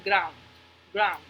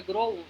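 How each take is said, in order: First: "ground" with OU as one gliding "au" sound; un solo sonido. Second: "ground" with the two vowels sounded as o-u; pronunciación incorrecta. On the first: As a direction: say "ground" as a single syllable, graund. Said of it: "solamente es un sonido". ("ground" en una sola sílaba, graund) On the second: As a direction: mispronounce "ground" as gro-und. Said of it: "no podemos hacer como que". ("ground" mal dicho, con o y u) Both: Shown as a demonstration.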